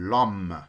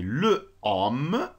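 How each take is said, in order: First: The article's vowel is dropped and joined to homme. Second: The article keeps its own vowel before homme. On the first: The speaker calls it right. "Ça devient l'homme" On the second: The speaker calls it wrong. "on peut pas dire le homme"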